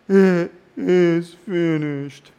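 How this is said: It is said weakly, like a defeated lament. The speaker is giving up in defeat. The speaker calls it wrong. "It is not a victim's lament. It's not a"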